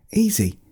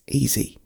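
First: Very high, bright-pitched bear reply; high, emphatic small-bear answer; little bear repeating. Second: High, gentle bear voice; quiet, reassuring one-word reply; little bear answering. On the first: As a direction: repeat it with pitch lifted right up. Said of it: "Gregor repeated". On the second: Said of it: "Gregor said". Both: A narrator's reading.

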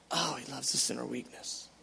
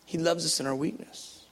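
First: Much softer, lower, breathed-out echo; a quiet awed echo of the line; hushed repeat. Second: Said in the usual way. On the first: Real, not acted. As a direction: repeat it as a tender near-whisper.

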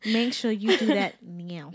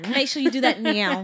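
First: Drawn-out bossy repeat; slow hammed-up order to viewers; slow mock command. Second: Loud bossy plug to viewers; hammed-up sales command; mock ad push. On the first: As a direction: lean on each word slowly. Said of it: "repeats plug slower". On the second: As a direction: order them to buy now. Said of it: "plugging the shop link".

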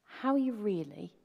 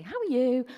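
First: Sincere. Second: Breezy, polite "How are you?" said in passing; casual greeting. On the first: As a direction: ask it as if you truly want to know. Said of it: "you sit down with a cup of coffee". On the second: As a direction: toss off "How are you?" as a quick social nicety. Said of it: "you meet them and you say". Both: Shown as a demonstration.

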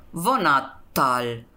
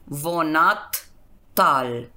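First: Said in the usual way. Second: Vonattal broken as vonat, pause, tal; slow vonattal, ending set apart; split at suffix. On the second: Shown as a demonstration. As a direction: say vonattal very slowly in two parts. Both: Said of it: "Esa es la regla con consonantes".

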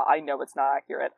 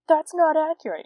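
First: Said in the usual way. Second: High, loud whiny know-it-all; mocking a nitpicking fencer. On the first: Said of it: "I was fourteen". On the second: Mocking the fencers who will complain, in a high loud whine. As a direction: sneer it like a pedant correcting you. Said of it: "don't come after me if you actually fence".

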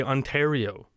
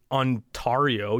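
First: Ontario with "tare" in the middle; usual Ontario pronunciation. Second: Ontario with "tar" in the middle; wrong Ontario pronunciation. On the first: Host arguing by example, Ontario with "tare". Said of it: "You say Ontario". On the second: Host arguing by example, Ontario with "tar". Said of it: "you don't say Ontario". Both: Shown as a demonstration.

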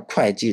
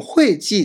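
First: 会計 said kuài jì, starting with k; standard kuài pronunciation. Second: 会計 said huì jì, starting with h; alternative huì pronunciation. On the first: Teacher giving the actual usage, 会計 said kuài jì. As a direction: say 会計 as kwai-jee. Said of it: "でも実際には". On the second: Teacher allowing a variant some people use, 会計 said huì jì. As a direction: say 会計 as hway-jee. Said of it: "でもいいみたいですけどね". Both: Shown as a demonstration.

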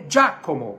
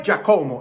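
First: "Giacomo" as DJA-co-mo, stress on Gia; first-syllable stress. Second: "Giacomo" stressed on co, Dja-CO-mo; wrong stress. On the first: Teacher corrects to Italian, stress on first syllable. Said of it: "a sílaba tônica é Gia". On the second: Teacher shows the American error, wrong stress. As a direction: push the middle syllable of "Giacomo". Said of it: "E não é". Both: Shown as a demonstration.

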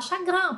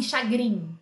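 First: "chagrin" ending in an open nasal "an"; correct French chagrin. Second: "chagrin" ending in a Portuguese "in" sound; wrong chagrin. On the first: Teacher telling students the rule for I N, French nasal "chagrin". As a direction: say "chagrin" as "sha-gran". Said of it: "você vai falar chagrin". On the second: Teacher showing students what not to say, mispronounced "chagrin". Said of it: "você não vai falar assim". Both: Shown as a demonstration.

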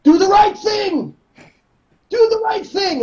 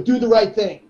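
First: Slow, much higher shouted command; Eduardo shouting. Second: Said in the usual way. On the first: Retold or imitated. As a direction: yell it at the class. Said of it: "sayings that he would say". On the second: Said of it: "he couldn't tell us what to do".

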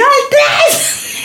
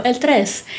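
First: Shouting. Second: Said in the usual way. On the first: Retold or imitated. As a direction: lose your temper at last. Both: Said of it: "Y yo".

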